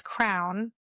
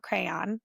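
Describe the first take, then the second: First: "crown" for crayon, one syllable; husband's crayon. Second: "crayon" said CRAY-on, two syllables; standard crayon. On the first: Retold or imitated. Imitating her husband's word for crayon, crown in one syllable. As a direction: say "crown" where crayon is meant. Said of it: "he says". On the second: Shown as a demonstration. Correcting her husband's word, crayon as CRAY-on.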